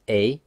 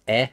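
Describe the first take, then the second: First: E said as "ay"; closed E sound. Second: E said as open "eh"; short open "eh" for E, without a glide; open E sound. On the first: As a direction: say E as French "é". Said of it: "This is E". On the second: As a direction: say E as French "è". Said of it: "This is E as well". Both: Shown as a demonstration.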